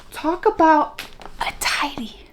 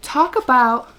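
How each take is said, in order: First: Hushed, breathy disbelief at the line; incredulous whisper. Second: Said in the usual way. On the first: Shown as a demonstration. Reviewer whispers the quote back in disbelief.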